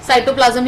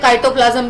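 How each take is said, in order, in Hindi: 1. यह शब्द S ध्वनि से शुरू होता है। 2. यह शब्द K ध्वनि से शुरू होता है। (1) "साइटोप्लाज्म ही कहा जाता है" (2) "काइटोप्लाज्म इज द गलत प्रोनाउंसिएशन"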